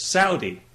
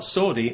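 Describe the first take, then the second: First: Saudi said as SOW-dee; corrected pronunciation. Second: Saudi said as SAW-dee; wrong pronunciation. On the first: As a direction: say Saudi with "ow" as in "cow". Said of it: "It's not Saudi". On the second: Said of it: "you're pronouncing that wrong". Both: Retold or imitated.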